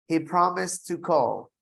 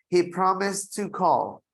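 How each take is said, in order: No difference in how they are said.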